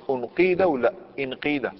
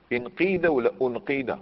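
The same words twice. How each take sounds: First: انقيد first as unqīda, then as inqīda; contrasting first vowel. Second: انقيد first as inqīda, then as unqīda; contrasting first vowel. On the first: Teacher quizzing students on the hamza vowel, contrasting u then i. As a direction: offer انقيد with opening u, then with opening i. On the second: Teacher repeating the quiz reversed, contrasting i then u. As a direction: offer انقيد with opening i, then with opening u. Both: Shown as a demonstration. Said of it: "واش نقولوا؟".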